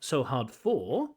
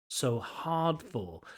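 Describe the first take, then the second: First: The stress falls on the word for. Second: The stress falls on the word hard. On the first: The speaker calls it wrong. "not so hard for" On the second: The speaker calls it right. "the stress shouldn't be on for here"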